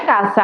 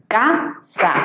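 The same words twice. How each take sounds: First: Said in the usual way. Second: "Casa" in two separate beats, ca, sa; syllable by syllable. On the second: Shown as a demonstration. Teacher dividing a word in two, "Casa" syllable by syllable. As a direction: pause between ca and sa in "Casa". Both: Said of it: "al dividirla en sílabas".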